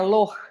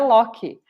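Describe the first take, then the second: First: The name ends in a throaty German ch sound. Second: The name ends in a k sound plus a vowel. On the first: This is the original pronunciation from the home country. "a pronúncia original lá na Alemanha é Loch" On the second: This is how people say it locally. "Aqui no Brasil é Loki"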